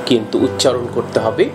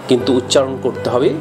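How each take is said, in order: The two takes are said the same way.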